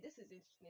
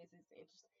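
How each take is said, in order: First: Said in the usual way. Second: Much softer, murmured repeat; quiet repeat. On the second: Shown as a demonstration. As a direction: say it again almost to yourself. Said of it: "Okay, this is interesting".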